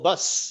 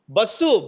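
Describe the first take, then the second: First: The word ends on its final consonant. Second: The word ends with an added u vowel. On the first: The word is spoken as English. The speaker calls it right. "you have to cut that last "u."" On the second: The word is used as a Telugu borrowing. The speaker calls it wrong. "add "u" and it becomes a Telugu word"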